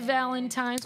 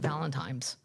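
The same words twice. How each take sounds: First: The word is said with an n sound. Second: The word is said with an m sound. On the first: The speaker calls it right. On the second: The speaker calls it wrong.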